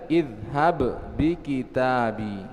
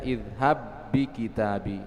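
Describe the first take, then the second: First: The first b is pronounced separately, not merged. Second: The two b sounds merge into one doubled b. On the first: The speaker calls it wrong. "tidak boleh kita baca" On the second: The speaker calls it right. "tapi bacanya"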